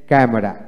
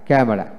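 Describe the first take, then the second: No difference in how they are said.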